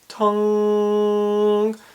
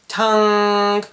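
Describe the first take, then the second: First: The nasal sound is dull and set back. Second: The nasal sound is bright and forward. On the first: "If it goes back, open up that rear nasal pharynx resonator" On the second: "If we go forward, it gets a bit bright"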